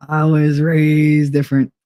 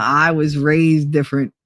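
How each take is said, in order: First: Firmer, stressing "raised"; emphatic repeat. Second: Said in the usual way. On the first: Shown as a demonstration. Tells chat she was raised different, firm. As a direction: lean on "raised" the second time.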